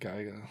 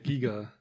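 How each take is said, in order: First: The first vowel sounds like 'eye'. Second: The first vowel sounds like 'ee'. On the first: The speaker calls it wrong. "nicht Geiger" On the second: The speaker calls it right. "Giger, nicht Geiger. Sorry"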